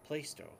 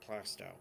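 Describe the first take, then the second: First: The name is said the outsider way. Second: The name is said the local way. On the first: The speaker calls it wrong. "people from the outside think it's pronounced Plaistow, which is wrong" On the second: The speaker calls it right. "we have a town in New Hampshire called Plastow"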